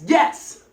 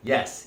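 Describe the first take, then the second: First: It is said with strong energy and engagement. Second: It is said calmly, with little energy.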